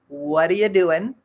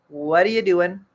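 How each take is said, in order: No difference in how they are said.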